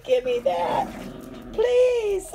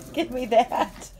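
First: Much higher, sweetly asking; high polite voice. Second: Said in the usual way. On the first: Shown as a demonstration. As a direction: ask in a high, polite little voice. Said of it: "Say, Give me that, please".

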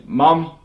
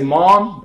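First: "mum" with a short "uh" vowel; New Zealand pronunciation. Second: "mom" with an open American "ah" vowel; American pronunciation. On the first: Showing how Kiwis name their mother, New Zealand "mum". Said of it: "we say mum". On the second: Showing how Americans name their mother, American "mom". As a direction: say "mom" like "mahm". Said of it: "Americans say mom". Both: Shown as a demonstration.

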